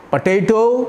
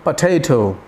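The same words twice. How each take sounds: First: पोटैटो with hard retroflex ʈ; पोटैटो, retroflex T's; harsh T. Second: पोटैटो, breathy ending; softened T. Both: Shown as a demonstration. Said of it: "compare करिए".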